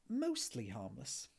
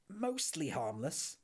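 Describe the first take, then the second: First: Sheepish, slow, trailing up on "Mostly harmless"; embarrassed admission. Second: Slow, incredulous "Mostly harmless?" with a mild mock shout. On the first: Acted. Ford sheepishly admitting the new entry to Arthur. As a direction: admit it reluctantly, drawn out. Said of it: "admitted Ford with a slightly embarrassing cough". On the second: Arthur shouting back at Ford in disbelief. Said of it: "shouted Arthur".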